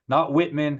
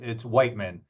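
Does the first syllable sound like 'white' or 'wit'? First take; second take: wit; white. First: The first syllable rhymes with 'wit'. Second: The first syllable rhymes with 'white'. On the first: The speaker calls it wrong. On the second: The speaker calls it right. "That's what I've always been told"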